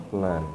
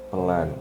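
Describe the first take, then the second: Both takes have the same delivery.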